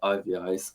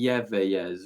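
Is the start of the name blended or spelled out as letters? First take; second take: spelled out; blended. First: The start is spelled out as separate letters. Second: The start is blended into one run of sound. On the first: This is how the band says its own name. The speaker calls it right. "we like to say it I V Is" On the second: This is how other people tend to read the name. The speaker calls it wrong. "I feel as though that's how people read it"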